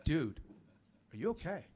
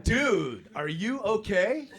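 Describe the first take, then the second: First: Soft, tentative question; hushed check. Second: High, loud, drawn-out concern; alarmed question. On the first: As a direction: ask gingerly, voice dropped. Asks him again, closer. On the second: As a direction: call out in mock alarm, rising at the end. First asking, in shock. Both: Retold or imitated.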